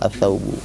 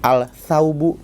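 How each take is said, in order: First: The l merges into a doubled s sound. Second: The l is clearly pronounced before the s. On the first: The speaker calls it right. "Ini juga sama as-saubu gitu ya" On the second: The speaker calls it wrong. "kan agak susah"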